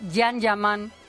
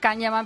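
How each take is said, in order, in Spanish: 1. El nombre empieza con un sonido Y. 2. El nombre empieza con un sonido K fuerte. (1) "pero se dice Yan Yaman" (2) "se escribe Can Yaman"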